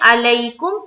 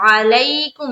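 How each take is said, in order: First: It begins with a plain vowel sound. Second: It begins with a throaty ain sound. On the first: The speaker calls it wrong. "मालूम होगा सुनने वाले को कि अलीफ पढ़ रहे हैं" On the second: The speaker calls it right. "आइन से"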